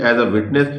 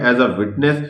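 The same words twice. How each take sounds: The two takes are said the same way.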